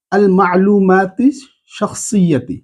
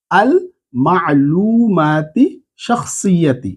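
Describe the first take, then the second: First: Slow, rising আল মা'লুমাতি, falling শাখসিয়াতি; slow teaching read. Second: মা'লুমাতি stretched very slowly, then শাখসিয়াতি falling; very slow repeat. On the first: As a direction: read it slowly for students to repeat. (ধীরে পড়ে শেখানো) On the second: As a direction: drag each syllable out for repetition. (আরও ধীরে টেনে টেনে) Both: Shown as a demonstration. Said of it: "আমার সাথে সাথে এটা পড়ে নেন".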